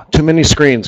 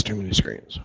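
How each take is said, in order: First: Said in the usual way. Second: "Too many screens" dropped much softer and lower under the breath; grumbling aside to yourself, "Too many screens" trailing off quiet; muttered repeat. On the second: Real, not acted.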